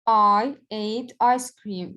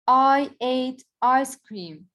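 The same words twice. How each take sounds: First: Slow, even read of the example; slow teacher repeat, settled. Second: Slow teacher demo, a bit raised; slow example read. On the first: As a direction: say the sentence slowly again, level. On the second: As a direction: spell the sentence out slowly for the class. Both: Shown as a demonstration. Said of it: "This is a statement".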